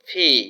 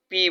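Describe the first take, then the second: First: The p is said with a strong puff of air. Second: The p is said without a puff of air. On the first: The speaker calls it right. "শুদ্ধ উচ্চারণ হচ্ছে ফি" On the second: The speaker calls it wrong. "এটাকে আমরা পি বলি"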